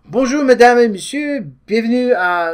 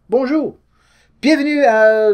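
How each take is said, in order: First: High, announcer-style French greeting; mock French host opening the show; French show intro. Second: Bright, high French-style greeting; playful mock French TV welcome; mock French intro. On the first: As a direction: welcome the audience like a French host. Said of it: "we can start this way". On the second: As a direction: greet like a French show host, pitched up. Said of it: "I don't know if I could do a whole video in French".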